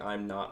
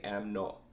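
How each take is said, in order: First: It is said in the speaker's plain accent. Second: It is said in an imitated Scottish accent. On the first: "instead of saying" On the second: "they say am not"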